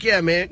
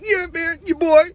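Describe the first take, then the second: First: Said in the usual way. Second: High-pitched, hammed-up rapper impression; badly faked rapper voice, jumping way up high. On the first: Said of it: "I do terrible [name]". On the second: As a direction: put on a bad, squeaky-high rapper voice.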